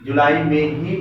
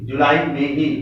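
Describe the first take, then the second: No difference in how they are said.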